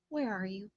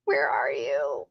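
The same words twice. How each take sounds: First: Said in the usual way. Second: Lower, slow, fake-sob wail; mock crying. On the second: Streamer playfully pleading with the missing winner, mock crying. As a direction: pretend to cry for the lost winner.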